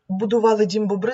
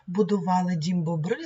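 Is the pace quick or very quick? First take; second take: very quick; quick. First: It is recited at an even quicker pace. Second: It is recited at a quick pace. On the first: "А зараз трошки швидше" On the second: "будемо одразу в пришвидшеному темпі"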